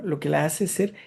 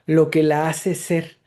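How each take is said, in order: First: Said in the usual way. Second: "lo que la hace ser" slowed and set apart, stress on "lo"; slow deliberate quote. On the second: Shown as a demonstration. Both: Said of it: "y es así de simple".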